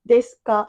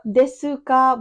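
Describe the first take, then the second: First: The u vowel in desu is weak, nearly silent. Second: The u vowel in desu is fully pronounced. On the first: The speaker calls it right. "but just desuka" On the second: The speaker calls it wrong. "it's not desuka"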